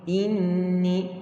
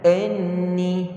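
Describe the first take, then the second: First: The first vowel sounds like i. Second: The first vowel sounds like e. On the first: The speaker calls it right. "Hamzah bawah i" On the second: The speaker calls it wrong. "jangan enni ... dia jadi hamzah bawah e"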